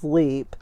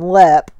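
First: The vowel is long, as in 'leap'. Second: The vowel is short, as in 'pep'. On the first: The speaker calls it wrong. "almost everyone that doesn't know anything about it says leap" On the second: The speaker calls it right. "The words he did pronounce correctly"

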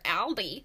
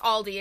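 First: The name is pronounced in an odd, mocking way. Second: The name is pronounced in the ordinary way. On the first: It imitates someone else's mistaken pronunciation. The speaker calls it wrong. "I have been saying it ironically to her" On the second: It is the speaker's own usual pronunciation. The speaker calls it right. "But anyway, it's Aldi, excuse me"

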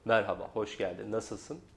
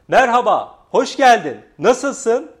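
First: The voice is pitched low and deep. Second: The voice is pitched higher and sounds excited. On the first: "Bu kalın do" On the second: "Burada biraz fa, coşku ve heyecan var"

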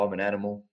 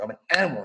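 First: The words are said flatly, with little energy. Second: The words are said forcefully, with strong energy. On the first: The affirmation has little effect. The speaker calls it wrong. "I could sit here and say, oh, ... It's not really going to be that powerful" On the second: The affirmation is felt and believed. The speaker calls it right. "I say it with conviction"

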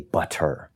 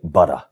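First: The t sound is crisp and emphasized. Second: The t sound is soft and unemphasized. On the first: This is the speaker's own habit. "I put the emphasis on the T's" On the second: This is how most local people say it. "most people in this area say"

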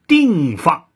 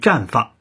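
First: The first syllable is pronounced ding. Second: The first syllable is pronounced zhan. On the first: The speaker calls it wrong. "她永远的都念定放" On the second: The speaker calls it right. "她不念绽放"

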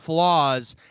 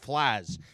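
First: The word is said in a plain accent. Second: The word is said in a Rochester accent. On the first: "instead of saying flaws" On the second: "like I'm from Rochester"

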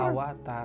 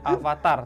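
First: The second consonant is sounded as a w. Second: The second consonant is sounded as a v. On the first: The speaker calls it right. "dalam bahasa Sanskerta V itu dibacanya W" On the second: The speaker calls it wrong. "jadi bukannya avatar"

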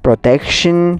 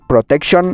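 First: The ending is said like 'shin'. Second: The ending is not said like 'shin'. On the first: The speaker calls it right. "the correct pronunciation is protection" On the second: The speaker calls it wrong.

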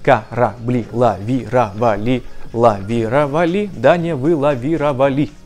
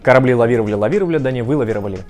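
First: It is said slowly, syllable by syllable. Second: It is said fast and fluently.

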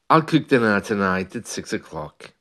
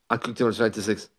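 First: It is fast but each word stays distinct. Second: Everything is rushed and the words blur together. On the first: The speaker calls it right. "So even as I say it faster, the words are still recognizable" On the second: The speaker calls it wrong. "That's just speeding up everything"

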